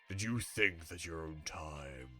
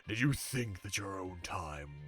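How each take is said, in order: Both takes have the same delivery.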